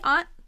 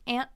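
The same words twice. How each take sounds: First: The vowel does not rhyme with 'can't'. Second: The vowel rhymes with 'can't'. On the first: "Some people say aunt. That's okay" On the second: "let's say aunt. Rhymes with can't"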